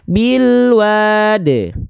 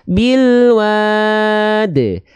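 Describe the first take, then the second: First: The long vowel is held for two counts. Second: The long vowel is held for four counts. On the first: "boleh dibaca pendek biasa, dua harokat" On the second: "Atau empat harokat"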